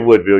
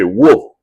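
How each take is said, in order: First: The name is said fully with both syllables. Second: The name is clipped into one short syllable. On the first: This is how outsiders say it. "if you're from Woodville, you don't say Woodville" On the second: This is how locals say it. "you say Wolf"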